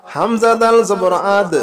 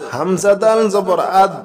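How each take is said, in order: Both takes have the same delivery.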